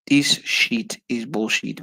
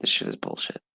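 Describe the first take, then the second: First: Slow, each word leaned on; drawn-out, deliberate complaint said aloud; slow emphatic. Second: Hushed disgusted aside; whispered. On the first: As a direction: spell it out slowly in disgust. Repeats the line, slow and voiced. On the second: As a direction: whisper it, fed up. Repeats the line, whispered first. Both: Real, not acted.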